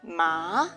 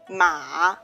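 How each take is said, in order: First: The pitch rises from middle to high. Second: The pitch dips low then rises. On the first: "The second tone is rising" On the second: "it's a falling rising tone"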